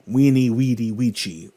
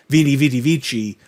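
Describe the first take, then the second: First: Each word begins with a W sound. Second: Each word begins with a V sound. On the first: This is how it was said in Latin. The speaker calls it right. "there is no V sound in Latin. it's actually" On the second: This is the common modern way of saying it. The speaker calls it wrong. "even though we say"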